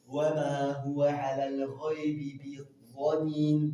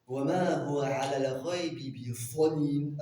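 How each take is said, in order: First: The last word has an emphatic d sound. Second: The last word has an emphatic th sound. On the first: "Dans la qira'a de Hafs" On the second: "Avec foi, la lettre elle change"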